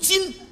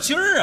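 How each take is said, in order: First: The word ends without an r-colored sound. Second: The word ends with an r-colored sound. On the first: The speaker calls it right. "正字读今" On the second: The speaker calls it wrong. "什么叫今儿啊"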